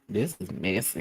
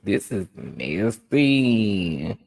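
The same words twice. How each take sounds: First: It is said in her ordinary speaking voice. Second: It is said in an imitated character voice.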